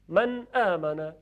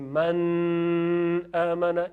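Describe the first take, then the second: First: The n sound is clear and short. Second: The n sound is not clear and short. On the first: The speaker calls it right. "نون خیلی کوتاه به اندازه خودش تلفظ میشه" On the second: The speaker calls it wrong. "پس نمیگیم من آمنا، این غلطه"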